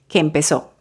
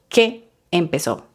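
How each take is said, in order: First: The two E vowels merge into one vowel. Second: The two E vowels are said separately. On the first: The speaker calls it right. "se convierte en una sola vocal" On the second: The speaker calls it wrong. "No que empezó, mm -mm"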